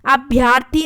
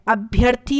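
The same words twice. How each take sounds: First: अभ्यर्थी said as abhyaarthi; long aa before the r in अभ्यर्थी; wrong form. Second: अभ्यर्थी with short bhya; short a before the r in अभ्यर्थी; correct form. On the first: Teacher showing the extra vowel, अभ्यर्थी with long bhyaa. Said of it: "अभ्यर्थी नहीं होता है". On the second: Teacher correcting students, अभ्यर्थी as abhyarthi, short middle a. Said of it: "अभ्यर्थी होता है". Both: Shown as a demonstration.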